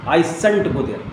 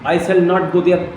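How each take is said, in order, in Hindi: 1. नकार को संक्षिप्त करके एक संकुचित शब्द बनाया जाता है। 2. नकार दो शब्दों में पूरा बोला जाता है।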